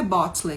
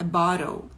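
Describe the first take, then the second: First: "bottle" as "bot-lee"; wrong "bottle", as spelt. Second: "bottle" with a flapped T; T becomes a quick R-like tap in "bottle"; lower-pitched "baw-rol" for "bottle"; correct American "bottle". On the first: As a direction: sound the T and final E in "bottle". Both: Shown as a demonstration. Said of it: "não é bottle que fala".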